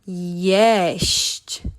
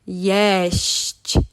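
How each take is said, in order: The two takes are said the same way.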